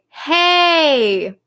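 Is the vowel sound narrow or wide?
wide. The vowel is open, with a wide mouth. The speaker calls it right. "your mouth is wide"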